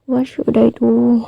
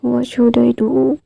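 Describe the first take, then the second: First: Drawn-out, softer whimpering plea; slow, soft teary question; mock crying. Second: Slow, softer whining repeat rising at the end; plaintive drawn-out question; mock crying. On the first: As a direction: stretch it out like a helpless lament. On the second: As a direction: drag it out, half-hearted sob. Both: A narrator's reading. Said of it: "सब लोग रोने लगते हैं".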